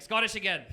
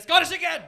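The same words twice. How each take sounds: First: Slightly raised, annoyed retort; mildly irritated correction. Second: Loud, high mock-furious outburst; exasperated shout. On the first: Acted. Irishman correcting a wrong guess, mildly annoyed. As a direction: correct them with mild mock irritation. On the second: Irishman fed up with wrong guesses, exasperated shout. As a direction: explode in mock exasperation at the repeated mistake. Acted exasperated correction, escalated take.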